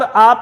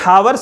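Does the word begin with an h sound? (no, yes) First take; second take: no; yes. First: It is a single open vowel without h. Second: It starts with h and ends in wer. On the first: The speaker calls it right. "आ पे पहुंच गया, ऐसे ही बोला जाता है ये" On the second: The speaker calls it wrong. "मैंने हावर से शुरू किया"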